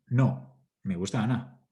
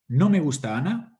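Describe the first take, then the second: First: There is a pause right after no. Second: It runs on with no pause after no. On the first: "la entonación, la segmentación y las pausas sí" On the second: "La misma frase la leeré de dos formas diferentes. Una puede ser"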